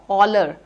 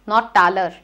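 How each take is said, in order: First: The first vowel is an open 'aw' sound. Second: The first vowel is not an 'aw' sound. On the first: The speaker calls it right. "It has to be taw" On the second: The speaker calls it wrong.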